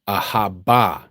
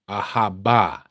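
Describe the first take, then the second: No difference in how they are said.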